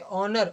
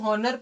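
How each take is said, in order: First: The word begins with a vowel sound. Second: The word begins with an h sound. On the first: The speaker calls it right. "इसको हम क्या पढ़ेंगे, ऑनर" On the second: The speaker calls it wrong. "क्या इसको हॉनर पढ़ेंगे क्या, नहीं"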